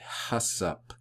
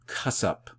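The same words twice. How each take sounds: First: The first sound is a soft breathy h. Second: The first sound is a hard, throaty k-like sound. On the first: The speaker calls it wrong. "I used to pronounce that H uh, in an aspirant, very uh, breathy" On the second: The speaker calls it right. "it's more of a hard sound, uh, more of a C H, like a hard C H"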